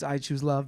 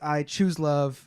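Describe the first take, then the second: First: The word "love" is stressed. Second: The word "choose" is stressed. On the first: Nothing else would be worth choosing. "if you emphasize love" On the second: It is a deliberate choice. "when you emphasize choose"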